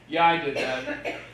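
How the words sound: It is said confidently.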